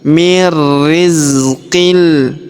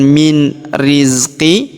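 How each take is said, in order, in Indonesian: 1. Bunyi n menyatu ke dalam r yang ditahan dan digandakan. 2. Bunyi n diucapkan dengan jelas sebelum r. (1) "tapi mir rizqil" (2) "Jadi bukan min rizqi"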